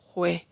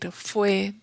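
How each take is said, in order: First: The word starts with a throaty h sound. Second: The word starts with an f sound. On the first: "palabras que son con F, las hace con J" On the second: "en lugar de decir fue"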